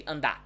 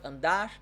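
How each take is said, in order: First: ANDAR without its R, ending on a stressed open "dah"; final R dropped. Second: ANDAR with the final R sounded; R pronounced at the end. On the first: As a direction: say "andar" as "andá". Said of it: "I would say andar". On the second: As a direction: say "andar" keeping its last R. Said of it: "instead of andar". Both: Shown as a demonstration.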